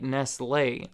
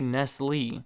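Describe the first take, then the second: First: The final E is sounded, following the accent mark. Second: It is said the plain American way. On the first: This follows the written accent on the E. "there's an accent over the E that makes it sound like Nestle" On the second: This is how people in the US say it. "in the U S, we don't have accents over our letters, so we all just kind of say Nestle"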